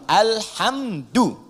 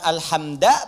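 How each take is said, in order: First: The word ends in a u vowel. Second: The word ends in an a vowel. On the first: The speaker calls it right. "alhamdu pakai dhammah" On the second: The speaker calls it wrong. "bukan alhamda pakai fathah"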